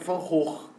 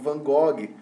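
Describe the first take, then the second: First: The name is said with a Dutch pronunciation. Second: The name is said with a non-Dutch pronunciation.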